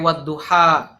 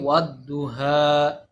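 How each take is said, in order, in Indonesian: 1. H-nya bunyi tenggorokan yang kasar dan tertahan. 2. H-nya bunyi napas yang ringan dan biasa. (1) "tidak pakai wadduha" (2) "pakainya ha, kan berarti salah ya"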